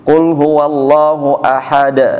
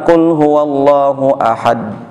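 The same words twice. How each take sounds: First: The final d is clearly released. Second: The final d is weak and unreleased. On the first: The speaker calls it right. "D-nya diperjelas" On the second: The speaker calls it wrong.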